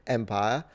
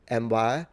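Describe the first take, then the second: Both takes have the same delivery.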